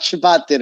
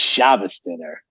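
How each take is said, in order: First: The first word ends with a t sound. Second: The first word ends with an s sound. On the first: "It's not Shabbat dinner"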